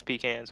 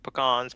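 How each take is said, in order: First: "pecans" said as PEE-cans; PEE-cans pronunciation. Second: "Pecans" said as puh-KAHNS; puh-KAHNS pronunciation. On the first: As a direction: open "pecans" on a long EE, then a short flat A as in can. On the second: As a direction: stress the second syllable of "Pecans", with an AH vowel. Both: Shown as a demonstration. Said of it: "whatever you wanna call 'em".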